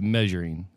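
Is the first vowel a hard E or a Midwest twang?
hard E. The first vowel is a hard, clear E. The speaker calls it right. "it's definitely a hard E"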